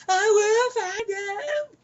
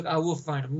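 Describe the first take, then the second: First: High, slow, bellowed threat; over-the-top yell. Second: Quietly pissed. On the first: Retold or imitated. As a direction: drag it out in a hammy yell. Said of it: "See, over the top". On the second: Shown as a demonstration. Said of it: "More pissed would have been better".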